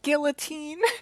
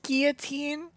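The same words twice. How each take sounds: First: The L is clearly sounded, English style. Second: The L is silent, French style. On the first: The speaker calls it wrong. "not guillotine" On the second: The speaker calls it right. "it's pronounced guillotine, It's French"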